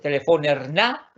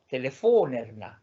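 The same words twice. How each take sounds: First: The stress falls away from the syllable 'fon'. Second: The stress falls on the syllable 'fon'. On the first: The speaker calls it wrong. "No es telefonerna, no" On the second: The speaker calls it right. "Siempre va acentuado en la última sílaba de ... singular indefinido"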